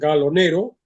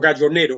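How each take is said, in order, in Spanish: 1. El nombre se pronuncia a la italiana. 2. El nombre se pronuncia a la española. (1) "Pronuncio la italiana" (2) "hay quien lo pronuncia en castellano"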